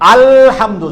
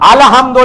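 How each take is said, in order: First: The word ends with a 'u' vowel. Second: The word ends with an 'o' vowel. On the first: The speaker calls it right. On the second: The speaker calls it wrong.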